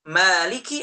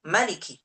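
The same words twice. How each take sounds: First: The first vowel is drawn out long. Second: The first vowel is kept short. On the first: God is the owner of the Day of Judgment. "dengan alif" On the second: God is the king of the Day of Judgment. "tanpa alif"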